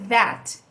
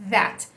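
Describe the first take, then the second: The two takes are said the same way.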